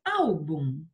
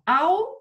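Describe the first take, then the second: First: Said in the usual way. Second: "álbum" split, ÁL high and loud, then bum; teacher sounding out "álbum" syllable by syllable, first one raised; stress on first syllable. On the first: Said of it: "vamos pensar numa paroxítona acentuada". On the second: Shown as a demonstration. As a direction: punch the ÁL of "álbum", pause, drop on bum. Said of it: "A sílaba forte é a".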